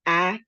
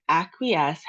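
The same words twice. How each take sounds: First: "acquiesce" broken into three separate beats, long pauses between; syllable by syllable. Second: Said in the usual way. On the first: Shown as a demonstration. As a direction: say "acquiesce" one clapped syllable at a time. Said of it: "way I do it is actually by clapping". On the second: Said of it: "has three syllables".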